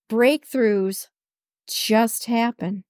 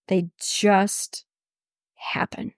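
First: Said in the usual way. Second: Whisper. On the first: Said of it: "happen (whispered repeat)". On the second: Shown as a demonstration. To her listeners, echoing her point in a whisper. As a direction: breathe the word happen, no voice. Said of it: "whispered repeat of the same words".

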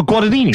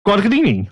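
First: Guadagnini said without its middle G; dropped G. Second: Said in the usual way. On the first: Shown as a demonstration. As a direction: say Guadagnini as "Gwa-da-nini", dropping the second G. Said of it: "you drop the G".

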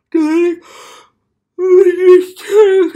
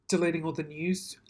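First: Very loud, high-pitched mock wail; sudden over-the-top yell, far higher and louder; mock outraged shout. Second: Said in the usual way. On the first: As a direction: belt it out in hammed-up despair. Yells it, then apologises for it.

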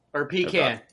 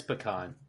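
First: "pecan" said PEE-kan, flat a; pee-can. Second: "pecan" said puh-KAHN, broad ah. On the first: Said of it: "how to pronounce pecan or pecan". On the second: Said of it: "how to pronounce pecan". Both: Shown as a demonstration.

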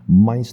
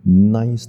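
First: "mice" stressed, starting with lips shut; closed-lip m. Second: "nice" stressed, lips never touching; open-lip n. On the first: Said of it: "一刚开始是闭嘴的". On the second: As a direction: start nice on n with lips apart. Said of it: "没有碰到". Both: Shown as a demonstration.

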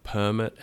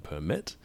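First: "permit" stressed on the first syllable, PER-mit. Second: "permit" stressed on the last syllable, per-MIT; stress on second syllable. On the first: Teacher giving another stress example, "permit" stressed up front. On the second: Teacher giving another stress example, "permit" stressed at the end. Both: Shown as a demonstration. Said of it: "the same goes for words like".

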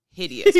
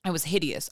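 First: "hideous" blurted high and loud; exaggerated yell. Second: Said in the usual way. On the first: Shown as a demonstration. Retelling her birth, shouting "hideous" for comic emphasis. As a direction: shout the word for comic punch.

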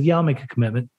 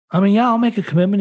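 First: Lower, softer, sincere yes; mean it this time, quietly; earnest promise. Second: Quick, higher, casual yes to the counselor; offhand agreement. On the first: Answering the counselor's serious question, earnest and low. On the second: Brushing off the counselor's question, offhand and quick. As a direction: toss off the promise lightly. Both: Retold or imitated. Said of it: "No, seriously".

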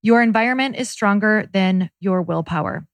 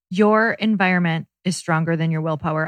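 First: Your environment is stronger than your willpower, repeated with firm weight; repeated motto. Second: Your environment is stronger than your willpower, said deliberately; slow emphatic statement. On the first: Cohost repeating her motto for emphasis, firm. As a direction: say it again like a creed. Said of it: "I will say it on every podcast". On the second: Cohost stressing her key motto to listeners, emphatic. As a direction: lay each word down firmly. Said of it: "Listen to me. This is so important". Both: Shown as a demonstration.

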